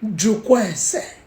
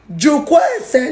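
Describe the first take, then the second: First: Jukwa ese said slow and even; the wise way, no shouting, just slow calm words; calm, not shouting. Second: Jukwa ese shouted higher and louder; shouting Jukwa ese at her, the way she shouldn't; loud shouted version. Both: Shown as a demonstration. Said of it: "No be by shouting".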